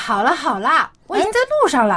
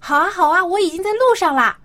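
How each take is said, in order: First: The tone is impatient and annoyed. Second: The tone is pleasant and sweet.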